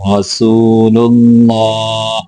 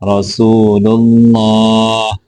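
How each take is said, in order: The two takes are said the same way.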